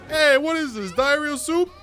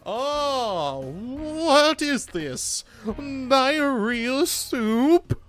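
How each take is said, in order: First: It is said in a brash street-tough voice. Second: It is said in a grumpy old lady voice.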